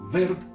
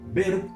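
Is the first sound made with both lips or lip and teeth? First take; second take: lip and teeth; both lips. First: The first sound is made with lip and teeth. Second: The first sound is made with both lips. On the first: The listener understands it better. The speaker calls it right. "de pronto me entiende mejor" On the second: The listener will not understand it. The speaker calls it wrong. "la otra persona no me va a entender"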